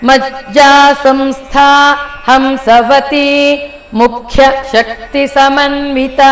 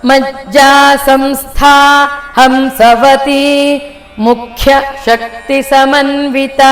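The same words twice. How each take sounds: The two takes are said the same way.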